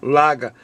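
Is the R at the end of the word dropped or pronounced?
dropped. The final R is dropped, Boston style. The speaker calls it wrong. "with the Boston accent"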